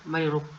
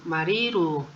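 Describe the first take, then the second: First: The i and u vowels are kept short. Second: The i and u vowels are drawn out long. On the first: "De otra manera se escucharía" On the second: "voy a colocarles las extensiones de o alargación de vocal para que se pronuncien"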